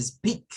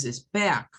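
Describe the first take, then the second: First: "speak" starting straight on the s, no e; correct English speak. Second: "speak" with added Spanish e before the s; wrong Spanish speak. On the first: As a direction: say "speak" as /spik/, clean s cluster. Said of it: "es speak". ("speak" sin e inicial) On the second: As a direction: say "speak" as espik. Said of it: "no es speak". ("speak" con e inicial española) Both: Shown as a demonstration.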